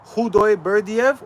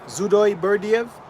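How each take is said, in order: First: The first name begins with an h sound. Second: The first name begins with a z sound. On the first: The speaker calls it right. "The first one" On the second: The speaker calls it wrong. "Almost true, but my name began with a H"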